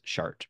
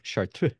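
First: It is said with a plain American pronunciation. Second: It is said with a put-on French-style pronunciation. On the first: "all America just says Chart because that's what we say" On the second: "if I were Father Eric Augenstein, I would probably say like Chartreux. But that's not even right"

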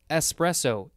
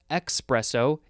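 First: The word begins with an "es" sound. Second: The word begins with an "ex" sound. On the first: The speaker calls it right. "it's espresso, E-S-P, not E-X-P" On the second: The speaker calls it wrong. "It's not espresso"

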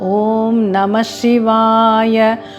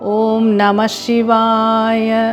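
No difference in how they are said.

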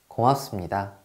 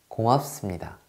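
The two takes are said the same way.

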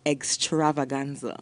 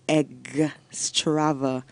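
First: The first syllable is said plainly, without emphasis. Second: The first syllable is emphasized, sounding like egg.

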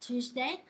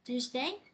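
First: The voice rises on the last syllable. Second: The voice rises on the last syllable.

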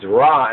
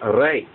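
First: The vowel is an open 'ah' sound. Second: The vowel is an 'ay' sound. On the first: The speaker calls it wrong. "it's not pronounced as Ra" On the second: The speaker calls it right. "it's pronounced as Ray"

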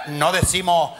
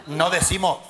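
The two takes are said the same way.

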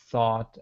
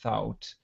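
First: The vowel sounds like 'ah'. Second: The vowel sounds like 'ow'. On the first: The speaker calls it right. "It still has this ah sound" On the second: The speaker calls it wrong. "sometimes I hear people say thout"

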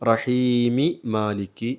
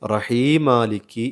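First: Both 'm' sounds are said, with an 'i' between. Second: The two words merge with a single 'm'. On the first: No letter is lost from the verse. The speaker calls it right. "മീമിൻ്റെ കെസർ വെളിവാക്കി" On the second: A letter is lost from the verse. The speaker calls it wrong. "ഒറ്റ മീമായി ഉച്ചരിക്കുന്നു"

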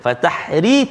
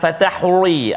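First: The r sound is light and thin. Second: The r sound is heavy and thick. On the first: The speaker calls it right. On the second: The speaker calls it wrong. "Jangan fatahri, ada setengah bacaan tu"

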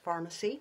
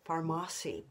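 First: It is said just like the word pharmacy. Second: It is said differently from the word pharmacy. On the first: This is how most people say the name. "but it is pronounced pharmacy. Most people say it that way" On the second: This is how the speaker feels the name should sound. "I think it should sound like Farmasi"

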